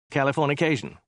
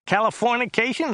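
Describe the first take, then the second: First: Mildly hesitant offer; Dirk's tentative guess. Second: High, nasal whine; Joe's whiny voice. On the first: Passenger guessing the driver's word, mildly tentative. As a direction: venture it without conviction. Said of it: "hazarded Dirk". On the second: Driver showing off a word to his passenger, high and whiny. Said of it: "His voice was rather high and whiny". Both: A narrator's reading.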